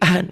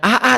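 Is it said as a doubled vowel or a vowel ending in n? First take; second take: ending in n; doubled vowel. First: A single a is followed by an n sound. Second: The vowel a is said twice, no n. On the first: The speaker calls it right. "tapi jadi an" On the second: The speaker calls it wrong. "Bukan A A"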